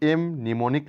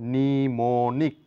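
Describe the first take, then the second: First: An m sound is pronounced at the start. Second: The word starts without any m sound. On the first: The speaker calls it wrong. "এম নিমোনিক নয়" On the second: The speaker calls it right. "এখানে এম লেটারটির কোনো sound নেই, তাহলে বলবো নিমোনিক"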